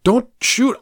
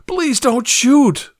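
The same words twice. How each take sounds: First: Frightened plea. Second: Begging, pitched much higher and slow; a victim begging the man with the gun to spare him; desperate plea. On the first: Pleading at gunpoint. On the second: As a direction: stretch out shoot as a terrified plea. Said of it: "I pleaded". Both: A narrator's reading.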